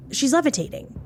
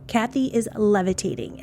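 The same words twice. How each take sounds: First: Pitched up high in disbelief; shocked gasp. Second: Said in the usual way. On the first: Retold or imitated. Husband seeing his wife float, a high shocked blurt. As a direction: blurt it out, stunned, voice jumping high. George sees Kathy floating.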